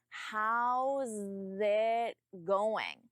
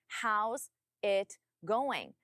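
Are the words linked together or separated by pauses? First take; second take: linked; paused. First: The words run together without pauses. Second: There are pauses between the words. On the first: The speaker calls it right. "You need to combine those sounds" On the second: The speaker calls it wrong. "But you pause between those words"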